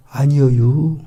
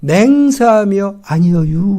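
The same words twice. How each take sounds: First: Denial in a rural Korean dialect drawl with a rising end; Galilean dialect. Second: Slow rural-dialect oath, 아니여유 drawn out with a rise; Galilean dialect, swearing. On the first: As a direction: Galilean rural dialect: 아니여유 with a lifted tail. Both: Retold or imitated. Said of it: "갈릴리 사투리 쓴다는 거죠".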